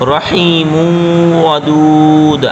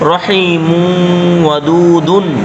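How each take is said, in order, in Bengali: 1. শেষ শব্দটি '-un' ছাড়া শেষ হয়। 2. শেষ শব্দটি '-un' দিয়ে শেষ হয়। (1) "হয়ে যাবে অক্ফের ক্ষেত্রে" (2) "আর যদি না থামেন তাহলে"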